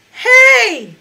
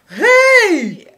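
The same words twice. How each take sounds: First: High, loud, forced and metallic shout; forced high note. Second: High, loud call with a warm, round tone; toned high note. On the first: Teacher demos a forced, metallic high note. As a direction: push the high note without opening the throat. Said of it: "Let's take a high note without toning it". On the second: Teacher demos a warm, toned high note. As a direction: open the throat and ring the note out. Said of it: "if we put our heaviest tone on it". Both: Shown as a demonstration.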